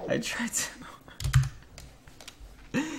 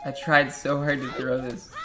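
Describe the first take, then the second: First: High, unvoiced "I tried so"; breathy repeat. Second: Said in the usual way. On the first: Real, not acted. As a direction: breathe it out half-laughing.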